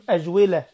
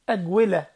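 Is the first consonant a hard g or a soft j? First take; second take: soft j; hard g. First: The consonant is a soft j sound. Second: The consonant is a hard g sound.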